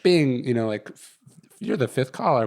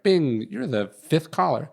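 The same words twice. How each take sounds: First: Lightly voiced conference line chime, retold; half-hearted imitation of the call system's announcement; automated call voice. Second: Slow, sing-song mock of a conference line chime; lightly imitating the phone system announcer; automated call voice. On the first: Retelling to a friend how the line gave him away, mild mock robot voice. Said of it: "And so it goes like". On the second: Telling a friend how the call line announced him, slow mock robot voice. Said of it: "you get on a conference call and it's like".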